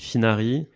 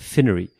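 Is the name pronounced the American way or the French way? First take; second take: French; American. First: The name is said with French pronunciation. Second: The name is said with American pronunciation. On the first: This is the speaker's own way of saying it. "Moi je dis Finari" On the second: This is how people in the United States said it. "les Américains, ils disaient Finery"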